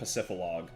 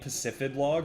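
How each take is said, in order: First: The D sound is dropped from the middle. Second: The D sound is pronounced in the middle. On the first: "or do you call it Pacifilog?" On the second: "Do you guys pronounce the D in Pacifid Log"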